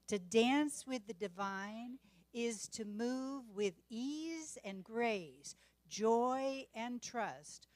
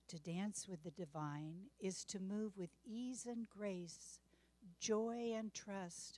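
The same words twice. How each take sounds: First: It is said with lively enthusiasm. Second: It is said in a calm, peaceful way.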